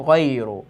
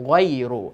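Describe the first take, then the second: Both takes have the same delivery.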